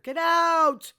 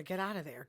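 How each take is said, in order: First: Much higher and louder, a yelled get out; shouted order. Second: Said in the usual way. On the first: Retold or imitated. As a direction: yell it at her to leave now. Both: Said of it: "I told her".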